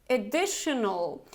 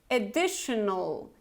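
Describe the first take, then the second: No difference in how they are said.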